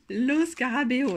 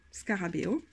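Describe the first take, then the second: First: "Lo Scarabeo" said slowly with a hammed-up Italian accent. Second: Said in the usual way. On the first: Shown as a demonstration. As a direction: roll out "Lo Scarabeo" like an Italian, slow and emphatic. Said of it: "Et mon accent, euh, italien est vraiment". (accent italien exagéré et lent sur « Lo Scarabeo ») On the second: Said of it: "Et mon accent, euh, italien".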